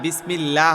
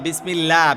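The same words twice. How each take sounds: First: The L sound is light and thin. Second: The L sound is heavy and dark. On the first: The speaker calls it right. "বিসমিল্লাহ হবে লাম চিকন" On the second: The speaker calls it wrong. "এই বিসমিল্লাহ না"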